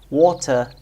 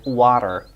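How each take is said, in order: First: It has a British accent with a clear T. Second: It has an American accent with a flap T.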